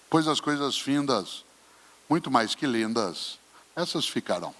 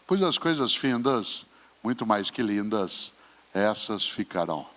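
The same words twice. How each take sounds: First: Poem recitation. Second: Slow, falling poem reading; poem recitation. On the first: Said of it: "quando ele diz". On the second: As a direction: recite it again, slow and weighty. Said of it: "Olha só". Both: Shown as a demonstration.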